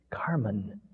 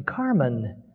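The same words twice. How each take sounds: First: Soft unvoiced whisper. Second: Pressing, insistent call; urgent. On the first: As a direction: breathe the name without voice. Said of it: "Neither could I speak with full voice". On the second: Acted. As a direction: call him back with urgency. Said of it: "More urgently".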